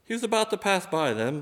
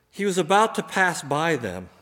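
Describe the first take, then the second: First: About stressed, tune rising at the end; rising question. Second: About pressed, phrase falling at the end; stress on about. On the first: Preacher repeats the verse, puzzled rising tune. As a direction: say it again as a puzzle, higher. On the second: Preacher reading the verse, stress on about. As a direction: lean on about and let it drop. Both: Shown as a demonstration.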